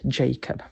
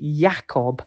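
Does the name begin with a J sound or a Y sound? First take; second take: J sound; Y sound. First: The name begins with a J sound. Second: The name begins with a Y sound. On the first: The speaker calls it wrong. "but not Jacob. They do not have the J sound there" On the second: The speaker calls it right. "It is Jacob"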